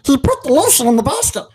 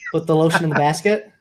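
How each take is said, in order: First: It is said in a Smeagol voice. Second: It is said in his normal voice.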